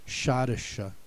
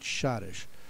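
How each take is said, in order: First: The final E is pronounced as a vowel. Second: The final E is silent. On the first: This is how the German spelling would suggest it. "if they spelled it with the E at the end that they would have said Schottische" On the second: This is how it is said in English use. "we always pronounced it Schottish"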